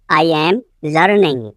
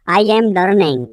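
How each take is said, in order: First: "I am", a pause, then "learning"; split repeat. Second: Said in the usual way. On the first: Shown as a demonstration. Teacher repeating for learners, phrase split in two. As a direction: leave a gap before "learning".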